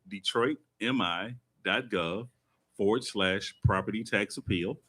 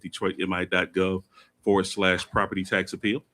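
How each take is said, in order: First: It is said more slowly and deliberately. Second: It is said at a normal, quick pace.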